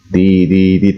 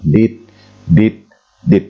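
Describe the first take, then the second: First: The three sounds run together in one breath. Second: The three sounds are separated by gaps. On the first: It is read as the single letter S. The speaker calls it right. "Dilapaskan sekali napas dan tidak boleh terputus" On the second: It would be read as separate letters. The speaker calls it wrong. "Kedengarannya terputus dan berspasi"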